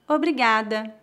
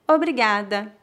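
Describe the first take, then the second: No difference in how they are said.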